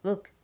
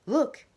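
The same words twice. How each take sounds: First: Said in the usual way. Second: Look! yelled much higher and louder; urgent alarmed look!; frantic look. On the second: Acted. Joseph pointing at the corner, look! shouted high.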